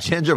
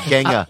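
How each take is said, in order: First: The word is said in a non-British pronunciation. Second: The word is said in a British pronunciation. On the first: "It's just like ginger" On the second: "They call him Genghis in England... they pronounce it differently"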